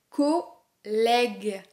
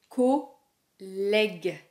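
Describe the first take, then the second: No difference in how they are said.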